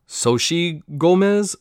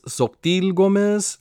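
First: "Xochitl" tried as "SO-shee", high and slow; butchered name. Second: "Xochitl" tried with a hard "-teel" ending; butchered name. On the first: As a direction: say "Xochitl" slowly as "SO-shee", pitched up, unsure. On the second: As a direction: say "Xochitl" slowly as "SOK-teel", pitched up, unsure. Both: Shown as a demonstration. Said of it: "I'm gonna fucking butcher this name".

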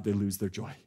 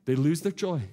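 First: Quiet, sinking. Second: Said in the usual way. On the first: Shown as a demonstration. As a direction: drop it low and soft, almost to yourself.

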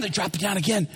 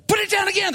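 First: Said in the usual way. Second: High, urgent order; excited command. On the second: Acted. Peter ordering the crew mid-catch, excited. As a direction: bark it out pitched way up.

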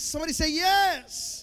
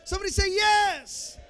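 First: Loud, higher call for a response; rally the crowd; preacher calling for an answer; call to the congregation. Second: Louder, higher shouted repeat; preacher shouting for the congregation's answer; shouted call. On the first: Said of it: "call to the crowd". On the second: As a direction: push the crowd harder. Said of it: "call repeated louder". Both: Acted.

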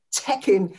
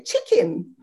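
First: "chicken" with an open E-like first vowel, like check-in; standard pronunciation. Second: Imitated New Zealand "chicken" with a short I; New Zealand vowel on "chicken"; New Zealand accent. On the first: Shown as a demonstration. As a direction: say "chicken" slowly with an E sound. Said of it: "they can't say chicken". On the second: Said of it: "They say chicken".

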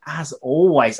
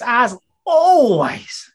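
First: Said in the usual way. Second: ALWAYS stretched high and loud; hammed-up wail on ALWAYS, held long; drawn-out ALWAYS. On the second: Host introducing his co-host, stretched theatrical ALWAYS.

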